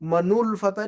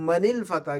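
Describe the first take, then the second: First: The linking vowel before the L is 'u'. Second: The linking vowel before the L is 'i'. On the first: The speaker calls it wrong. "मनुल फतह नहीं पढ़ेंगे" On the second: The speaker calls it right.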